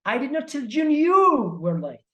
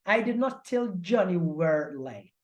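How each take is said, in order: First: The stress is on "you". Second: The stress is on "were".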